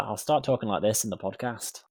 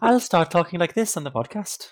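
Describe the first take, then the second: First: Mock Scottish slipping into Welsh; muddled fake Scottish-Welsh accent; botched Scottish accent. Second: High, loud, hammed-up Welsh lilt; exaggerated fake Welsh accent; mock Welsh accent. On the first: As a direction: attempt Scottish, drift towards Welsh. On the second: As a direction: lean into a singsong Welsh accent. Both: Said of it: "I thought that was Welsh".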